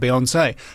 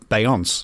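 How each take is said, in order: First: The final E is sounded as 'ay'. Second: The final E is not sounded as 'ay'. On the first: "The acute accent on the final E of [name] that makes it [name]" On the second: "in my head I was pronouncing it Beyonce"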